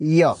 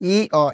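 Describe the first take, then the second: First: The two vowels are blended quickly together. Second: The two vowels are said separately and slowly. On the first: The speaker calls it right. "শীঘ্রতার সাথে একসঙ্গে দুইটাকে উচ্চারণ করতে হবে" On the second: The speaker calls it wrong. "এটা না"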